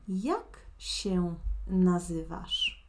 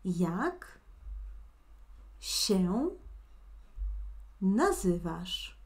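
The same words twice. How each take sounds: First: It is said at a faster pace. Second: It is said at a slower pace.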